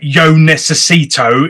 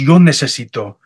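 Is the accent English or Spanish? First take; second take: English; Spanish. First: It is said with an English accent. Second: It is said with a native Spanish accent. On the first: The speaker calls it wrong. "in my English accent" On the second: The speaker calls it right. "good try, pero es yo necesito"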